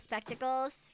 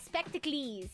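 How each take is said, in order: First: The ending is said as 'culls'. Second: The ending is said as 'clees'. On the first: "instead of" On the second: "lays or clees, like in Greek"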